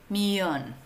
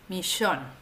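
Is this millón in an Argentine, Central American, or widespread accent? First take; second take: Central American; Argentine. First: It is said with a Central American pronunciation. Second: It is said with an Argentine pronunciation.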